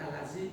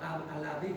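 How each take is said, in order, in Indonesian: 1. Konsonan di tengah itu bunyi 'z' biasa. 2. Konsonan di tengah itu bunyi 'th' yang lembut.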